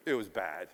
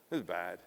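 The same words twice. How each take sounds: First: "It was bad." said low and heavy; grim low statement. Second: "It was bad." repeated softer, trailing off; quieter echo. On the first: Speaker recalling a bitter business rivalry, low and grim. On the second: Speaker echoing his own words to the audience, quieter. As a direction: let "It was bad." fall away softly. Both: Shown as a demonstration.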